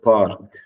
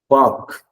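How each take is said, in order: First: The word is said with an R sound. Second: The word is said without an R sound. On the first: The speaker calls it wrong. "It's not park" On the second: The speaker calls it right. "the R is silent. You don't say the letter R"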